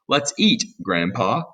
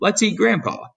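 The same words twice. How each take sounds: First: There is a pause before Grandpa. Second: There is no pause before Grandpa.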